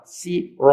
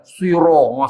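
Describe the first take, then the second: First: The first s is plain and light. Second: The first s is emphatic and heavy. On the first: "sin tu huruf rendah" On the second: "Bila tukar sad"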